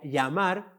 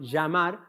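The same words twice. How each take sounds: First: The 'll' is said like a 'y' sound. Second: The 'll' is not said like a 'y' sound. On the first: "pronunciaba más la y" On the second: "no llamar"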